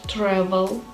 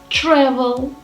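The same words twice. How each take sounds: First: The TR is said as a plain T sound. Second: The TR is said like 'ch'. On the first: The speaker calls it wrong. "not ter" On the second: The speaker calls it right. "should be pronounced as ch"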